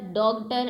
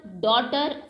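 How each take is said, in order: First: "डॉक्टर" for daughter, with a g before the t; G sounded. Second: Said in the usual way. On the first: Shown as a demonstration. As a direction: voice the silent g, "डॉक्टर" as dog-tar. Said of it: "ऐसा तो कोई नहीं बोलता". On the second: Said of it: "इन सभी में जी silent है".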